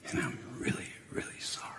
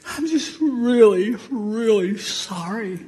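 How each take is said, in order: First: Unvoiced hushed; whispered sorry. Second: High, slow, teary; tearful sorry. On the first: Sinner praying to Jesus, whispered sorry. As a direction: whisper the word really. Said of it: "pair: whispered sorry". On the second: Retold or imitated. Crying grandson apologizing, high teary sorry. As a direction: sob the word really. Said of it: "pair: child's sorry".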